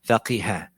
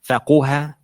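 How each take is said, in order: First: The vowel after q is i. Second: The vowel after q is u. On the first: "or it can have a kasra" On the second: "It can have a dhamma"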